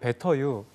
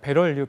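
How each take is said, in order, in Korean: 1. 영국식 억양입니다. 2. 미국식 억양입니다. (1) "영국에서 공부하시면 베터유라고" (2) "발음하기가 좀 어려워요"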